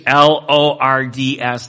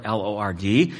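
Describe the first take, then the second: First: L O R D S spelled out louder, each letter stressed; stressed spelling. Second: Said in the usual way. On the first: Shown as a demonstration. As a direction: spell L O R D S out hard for the capital letters. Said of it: "because he is the uppercase". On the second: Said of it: "lowercase Lord".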